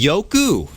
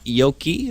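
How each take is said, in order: First: The name ends with an 'oo' vowel. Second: The name ends with an 'ee' vowel. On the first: The speaker calls it right. "it heard it's going to be Yoku" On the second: The speaker calls it wrong. "not Yoki"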